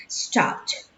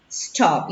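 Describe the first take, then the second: First: "Stopped" as one syllable ending in a T sound; past-tense pronunciation. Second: Said in the usual way. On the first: Shown as a demonstration. Teacher models the past form for students, "Stopped" as one syllable. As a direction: say "Stopped" with a crisp final PT. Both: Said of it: "tengan en cuenta la pronunciación".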